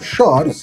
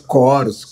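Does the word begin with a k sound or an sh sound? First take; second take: sh sound; k sound. First: The word begins with an sh sound. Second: The word begins with a k sound. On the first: The speaker calls it right. "CH, choros" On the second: The speaker calls it wrong. "não"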